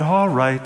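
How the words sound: It is said in a formal, solemn reading tone. It is read aloud as scripture in a service. The speaker calls it wrong. "whenever they said what God said, it sort of had this tone"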